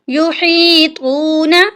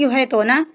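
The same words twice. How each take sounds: First: The word is said slowly and carefully. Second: The word is said hastily and quickly. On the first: The speaker calls it right. "इसकी सही अदायगी है" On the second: The speaker calls it wrong. "जल्दी जल्दी में पढ़ देते हैं"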